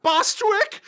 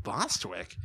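First: Very high falsetto call; high singy mock screech; cartoon old ladies. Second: Low, soft puzzled echo; much lower, quieter query; baffled grandpa. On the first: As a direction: call out like a dotty old lady. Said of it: "the old ladies go like". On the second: Retold or imitated. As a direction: mutter the odd name in bewilderment.

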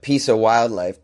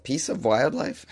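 First: Said in the usual way. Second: "Piece of wildlife" slowly, rising into a question; "wildlife" lifted at the end in doubt; self-questioning. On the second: Real, not acted. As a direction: echo "Piece of wildlife" softly as a puzzled question. Questions own odd phrase, laughs.

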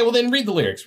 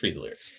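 First: Insistent. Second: Low quiet repeat; muttered. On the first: Urging the cohost. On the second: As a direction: mutter it under your breath. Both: Real, not acted.

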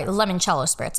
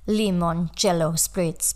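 First: Said in the usual way. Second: Slow, badly done Italian accent; clumsy, drawn-out Italian-accented words; terrible Italian accent. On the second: Shown as a demonstration. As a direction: attempt an Italian accent with English showing through. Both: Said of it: "that's my terrible Italian accent".

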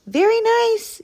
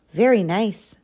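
First: Very high-pitched yelling rabbit; high, emphatic rabbit yell; rabbit's yell. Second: Said in the usual way. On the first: A narrator's reading. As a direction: yell it high, for someone who can't hear. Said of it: "yelled Rabbit". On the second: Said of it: "said Rabbit".

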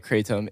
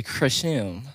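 First: Kratom as "KRAY-tum"; KRAY-tum for Kratom, weak second syllable; common pronunciation. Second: Kratom turned into "kruh-SHUM"; corrected pronunciation. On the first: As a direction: say Kratom with a long "ay" in front. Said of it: "most people calling it Kratom". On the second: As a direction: say Kratom with a "sh" in the middle. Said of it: "it is actually Kratom". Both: Shown as a demonstration.

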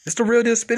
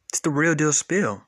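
First: Higher and louder repeat. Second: Said in the usual way. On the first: Real, not acted. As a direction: punch it up louder.

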